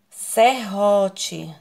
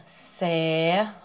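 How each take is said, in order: First: Said in the usual way. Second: Serrote split as ser... ro... te; slow separate beats on serrote; serrote, pausing after each syllable. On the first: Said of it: "separe as suas sílabas". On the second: Shown as a demonstration. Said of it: "ficarem sílabas diferentes".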